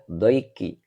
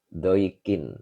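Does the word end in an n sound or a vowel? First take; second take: vowel; n sound. First: The word ends on a vowel sound. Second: The word ends with an n sound. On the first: The speaker calls it wrong. "Jadi tidak dibaca doiki" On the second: The speaker calls it right. "dengan tanwin ya"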